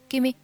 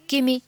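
The two takes are said the same way.

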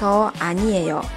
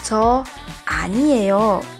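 First: It is said in a calm, relaxed tone. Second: It is said in a firm, indignant tone.

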